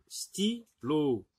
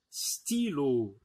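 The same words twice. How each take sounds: First: "stylo" split into sty, then lo; syllable by syllable. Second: Said in the usual way. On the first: Shown as a demonstration. Teacher helping pupils hear the i, "stylo" in separate syllables. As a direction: pause between the two syllables of "stylo". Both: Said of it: "on entend i".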